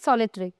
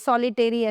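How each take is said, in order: First: The ending is said reduced, as 'tri'. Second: The ending is said with a full 'teri' sound. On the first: The speaker calls it right. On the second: The speaker calls it wrong.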